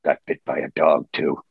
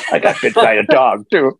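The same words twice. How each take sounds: First: Wolverine deadpan. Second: Said in the usual way. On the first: Retold or imitated. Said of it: "he says".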